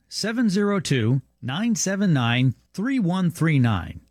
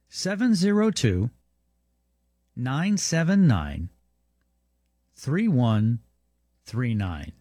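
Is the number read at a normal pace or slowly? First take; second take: normal pace; slowly. First: The number is read at a normal pace. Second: The number is read more slowly.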